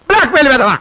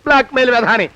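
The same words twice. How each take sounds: First: Бlack-mail insult spat out louder; louder angry repeat. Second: Said in the usual way. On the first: Acted.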